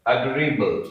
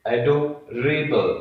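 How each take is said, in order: First: Said in the usual way. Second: "adorable" stretched slowly, split as एडो, rebel; slow syllable breakdown. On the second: Shown as a demonstration. Teacher introducing the next word, "adorable" slowly in parts. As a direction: draw out "adorable" in two careful parts. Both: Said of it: "आइए next है".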